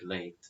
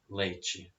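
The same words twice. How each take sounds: First: It is said with a European Portuguese accent. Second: It is said with a Brazilian Portuguese accent.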